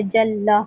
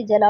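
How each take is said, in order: First: Said in the usual way. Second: جلا said jala with a single short l; جلا read as plain jala, no doubled lam; shadda dropped. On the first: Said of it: "اب جلا لکھا ہوا ہے". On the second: Shown as a demonstration. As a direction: skip the shadda in جلا as a demo mistake. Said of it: "اس کو خالی جلا پڑھ دیا".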